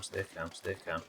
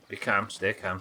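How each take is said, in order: First: Much softer and lower, calming herself; lower, softer self-soothing murmur; fading to a murmur. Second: Said in the usual way. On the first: Real, not acted. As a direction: sink the voice to a near-hush.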